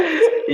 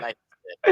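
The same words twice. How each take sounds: First: Life is good, jumped way up high and loud; high, loud, squealing exclamation; squealed. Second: Life is good, called out louder and bolder; louder, bright-voiced exclamation; exclaimed. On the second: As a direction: belt out life is good with a grin. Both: Real, not acted. Repeating his own phrase.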